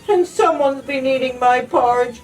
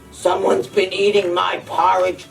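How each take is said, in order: First: It is cried in Baby Bear's small voice. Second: It is growled in Daddy Bear's deep voice.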